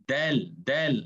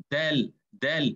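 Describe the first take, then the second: The two takes are said the same way.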